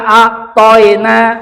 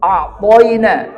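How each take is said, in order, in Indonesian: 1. Bunyi ya diucapkan keras, tidak lembut. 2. Bunyi ya diucapkan lembut.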